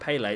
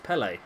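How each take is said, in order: First: Pele is pronounced the way American commentators say it. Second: Pele is pronounced the way English football fans say it. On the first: The speaker calls it wrong. "it's not Pele" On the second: The speaker calls it right. "it's Pele"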